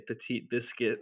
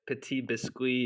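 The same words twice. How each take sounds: First: It is said with an American accent. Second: It is said with a European, French-like accent.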